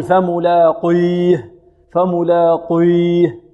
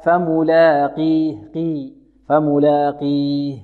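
First: "فملاقيه" with an overly thick, dark q colouring the long i; slow mistaken "فملاقيه" with exaggerated heavy q; wrong heavy qaf. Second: "فملاقيه" with a lightened q and pure long i; least-heavy qaf. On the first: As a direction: recite "فملاقيه" wrongly, "قي" swollen to "qoy". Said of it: "فماذا يقول؟". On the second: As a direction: recite "فملاقيه" slowly, "قي" clear and thin. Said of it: "في أقل مراتب التفخيم". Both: Shown as a demonstration.

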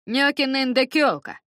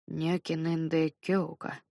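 First: Нёкинендекёлка said high, clearly, falling; Нёкинендекёлка spoken as a model; Dutch phrase shown. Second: Нёкинендекёлка mumbled slowly and softly; Нёкинендекёлка muttered, self-conscious. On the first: Shown as a demonstration. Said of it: "Повтори-ка". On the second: Acted. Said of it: "пробормотал я".

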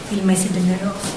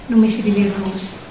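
No difference in how they are said.

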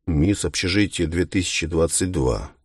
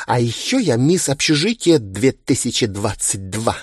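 First: Skeptical. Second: Proud, bubbly high boast; boastful. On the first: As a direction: repeat the title unimpressed. Повторяет титул с сомнением. (скептически и сухо) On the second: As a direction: brag about the title with glee. Хвастается титулом. (хвастливо и восторженно) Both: Acted.

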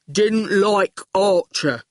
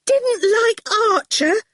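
First: Slow oaf stating simply; goon voice. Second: Very high, slow, incredulous question; near shriek. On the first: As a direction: report it ploddingly like a simpleton. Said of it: "said the goon". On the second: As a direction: echo it in scandalised disbelief. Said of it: "she almost shrieked". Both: A narrator's reading.

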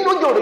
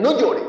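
First: High, louder mock scolding; sharp reprimand, pitched right up; controlling mother. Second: Lightly acted strict mother, pitched up; a brief, higher scolding order; controlling mother. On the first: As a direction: imitate a mother scolding as she pinches. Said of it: "Le metían el pellizco y decían". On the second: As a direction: imitate a mother's quick reprimand. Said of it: "una mamá que les controlaba las emociones".

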